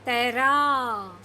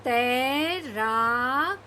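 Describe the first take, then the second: First: तैराक said slowly with a falling end; slower reading. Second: तैराक stretched out very slowly, rising at the end; very slow reading. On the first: Teacher repeating the word slowly for the class. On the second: Teacher asking kids to read slowly, drawing the word out. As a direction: draw out तैराक syllable by syllable. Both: Shown as a demonstration. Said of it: "धीरे धीरे पढ़ने की कोशिश करिए".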